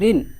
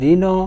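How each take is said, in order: First: The word ends on a bare consonant sound. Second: The word ends with an added vowel sound. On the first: The speaker calls it right. "এভাবে just বলি ঋণ, তার মানে এখানে স্বরধ্বনি নাই" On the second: The speaker calls it wrong. "তখন স্বরধ্বনি আসছে"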